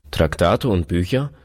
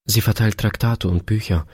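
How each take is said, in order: First: Mildly indignant rising echo; displeased. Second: Said in the usual way. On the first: A narrator's reading. Husband echoing his wife's explanation, mildly displeased. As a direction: question it back with a touch of displeasure. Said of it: "sagte der Mann unwillig". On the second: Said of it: "erklärte seine Frau".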